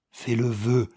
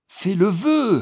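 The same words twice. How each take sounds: First: A mildly louder command. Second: High, loud insisting repeat; insistent loud command. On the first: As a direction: order him to wish. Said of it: "cria-t-elle d'une voix forte". (ordre un peu plus fort) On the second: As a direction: demand it again, unyielding. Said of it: "répéta sa femme". (ordre répété, aigu et fort) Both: A narrator's reading.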